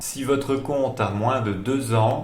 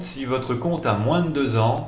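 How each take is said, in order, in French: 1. Elle est prononcée plus lentement. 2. Elle est prononcée à un rythme normal.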